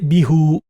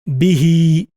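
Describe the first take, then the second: First: The word ends with an u vowel. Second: The word ends with an i vowel. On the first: The speaker calls it wrong. "can't say bihu, doesn't sound nice" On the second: The speaker calls it right. "what happens in Arabic becomes bihi"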